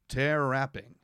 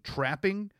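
First: An extra vowel separates the first two consonants. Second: The first two consonants are joined directly. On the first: "They'll sneak extra vowels in between consonants" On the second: "instead of saying trapping"

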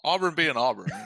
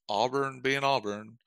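First: It is said in an upbeat, proud tone. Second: It is said in a resigned, disappointed tone. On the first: The team is expected to succeed as usual. The speaker calls it right. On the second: The team is expected to fail as usual. The speaker calls it wrong.

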